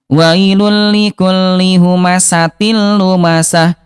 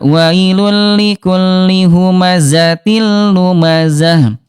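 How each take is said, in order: First: The consonants are hissing s sounds with air. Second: The consonants are buzzing z sounds without air. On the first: The speaker calls it wrong. "yang ke satu" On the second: The speaker calls it right. "yang betul adalah yang kedua"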